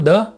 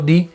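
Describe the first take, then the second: First: The word ends in a short 'uh' vowel. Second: The word ends in a long 'ee' vowel. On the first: "इसे हम द और दी दोनों ही तरह से बोल सकते हैं" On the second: "इसे हम द और दी दोनों ही तरह से बोल सकते हैं"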